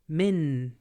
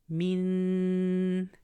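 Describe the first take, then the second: First: The n is crisp, with the tongue touching. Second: The n is muted, nasal and held longer. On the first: "your tongue touches the top palate and you say it nice and clearly" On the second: "barely pull your tongue back and you're going to produce gunna on it and you're going to hold it two counts"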